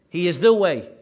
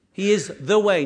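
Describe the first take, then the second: First: "the" hit loud again in "He is the way"; stress on the. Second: "the" lifted and punched in "He is the way"; stress on the. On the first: Preacher repeating to the congregation, "the" stressed firmly. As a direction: press down on "the" once more. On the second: Preacher insisting to the congregation, weight on "the". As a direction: lean hard on "the" as in the only way. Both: Shown as a demonstration. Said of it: "not a way".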